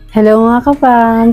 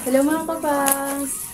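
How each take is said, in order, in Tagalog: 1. Malinaw ang boses, malapit at madaling marinig. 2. Mahina ang boses at mahirap marinig. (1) "At ito po ang difference" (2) "Hindi niyo ako naririnig ngayon"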